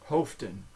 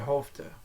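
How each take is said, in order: First: The final N sound is clearly pronounced. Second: The final N sound is left off. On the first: The speaker calls it wrong. "you will pronounce the N" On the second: The speaker calls it right. "So that final N is dropped"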